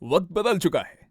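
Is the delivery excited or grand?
grand. It is said in a grand, majestic tone. "Grand वे में"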